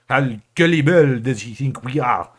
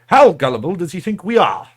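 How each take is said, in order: First: It is said in a put-on French accent. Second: It is said in the speaker's ordinary accent.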